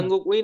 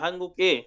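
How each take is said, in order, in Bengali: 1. শেষ অংশটি আলাদা 'ui' হিসেবে উচ্চারিত হয়। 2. শেষ অংশটি 'e' হিসেবে উচ্চারিত হয়। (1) "হাঙ্গুক উই না" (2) "যখন নামের সাথে বসবে তখন উইকে এ উচ্চারণ করবেন"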